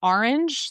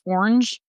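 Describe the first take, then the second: First: "orange" in two syllables; two-beat "orange"; standard ORANGE. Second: "orange" squashed into one syllable; one-beat regional "orange". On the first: Shown as a demonstration. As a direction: say "orange" as "or-inj", pitched up. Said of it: "instead of". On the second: Retold or imitated. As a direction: say "orange" as "ornj". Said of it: "one syllable".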